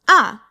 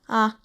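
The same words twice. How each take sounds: First: The pitch falls sharply from high to low. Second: The pitch is short, light and unmarked. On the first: "Fourth tone" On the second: "that fifth tone I talked about"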